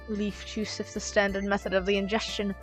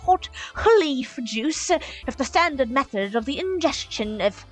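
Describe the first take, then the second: First: It is said in a normal voice. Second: It is said in a theatrical bard accent.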